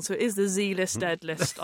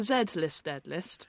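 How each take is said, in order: First: "Z" said as American "zee"; "Z List" with "Z" as "zee". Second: "Z" said as British "zed"; "Z List" with "Z" as "zed". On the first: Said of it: "aren't you now gonna spell it wrong". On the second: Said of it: "we speak properly in this country". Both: Shown as a demonstration.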